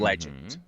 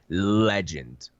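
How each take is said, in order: First: The word is said plainly, without extra force. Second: The word is said with strong, forceful emphasis.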